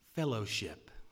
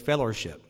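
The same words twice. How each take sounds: First: It has no 'er' sound in the middle. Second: It has an 'er' sound, southern style. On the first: The speaker calls it right. "There's not an ER in there" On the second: The speaker calls it wrong. "Down south, we say fellowship. There's an ER in there. It's not how you say it"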